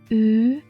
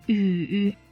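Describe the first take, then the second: First: The pitch rises from middle to high. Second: The pitch dips low, then rises.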